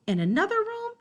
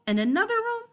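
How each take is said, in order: Both takes have the same delivery.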